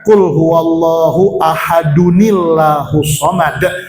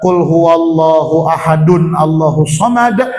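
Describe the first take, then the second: First: 'Ahadun' links to 'llahu' through an added 'ni'. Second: 'Ahadun' and 'Allahu' are said separately, unlinked. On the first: The speaker calls it right. "tapi dibaca" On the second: The speaker calls it wrong. "jangan dibaca"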